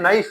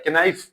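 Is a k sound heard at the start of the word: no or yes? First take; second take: no; yes. First: The word begins with an n sound. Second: The word begins with a k sound. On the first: The speaker calls it right. "ये नाइफ है" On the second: The speaker calls it wrong. "कि नाइफ नहीं है"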